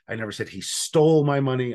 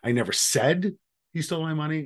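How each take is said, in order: First: The stress is on "stole". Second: The stress is on "said".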